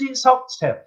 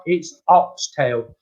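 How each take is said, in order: First: Retold protest. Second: Slow, emphatic reassurance, lightly acted; retold patient insistence. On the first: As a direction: protest in a high, small voice. Retold insisting to doubting customer. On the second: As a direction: spell it out slowly to a doubter.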